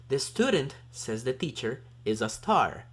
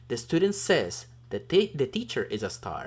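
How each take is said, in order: First: Pauses set off the words 'says the teacher'. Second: No pause follows 'student'; it runs into 'says'. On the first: The teacher is calling the student a star. "the student is a star because the teacher says so" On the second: The student is calling the teacher a star. "the student is the one saying that the teacher is a star"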